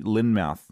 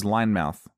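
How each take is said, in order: First: "Lynmouth" slowly as LIN-mouth; short i. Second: "Linemouth" with first syllable like "line"; long i. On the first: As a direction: say "Lynmouth" with "lin", not "line". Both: Shown as a demonstration. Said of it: "This is Linemouth".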